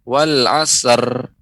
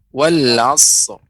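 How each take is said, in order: First: The final r carries a vowel sound. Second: The final r is bare and heavy. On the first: The speaker calls it wrong. "jangan sampai nampak seperti huruf eh, berharokat" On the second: The speaker calls it right. "Tapi rok tebal"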